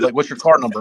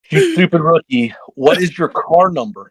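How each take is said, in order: First: Said in the usual way. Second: Higher, deliberately spaced-out question; retold exasperation. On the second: Team boss to a confused rookie, exasperated. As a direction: spell out "what is your car number" impatiently.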